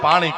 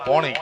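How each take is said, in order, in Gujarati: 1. પહેલો સ્વર ખુલ્લો 'aa' અવાજ છે. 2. પહેલો સ્વર ગોળ 'o' અવાજ છે. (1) "ગુજરાતી ભાષામાં પાણી કહી" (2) "ઉત્તર ગુજરાતમાં આને પોણી કહે"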